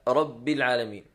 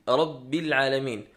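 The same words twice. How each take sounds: No difference in how they are said.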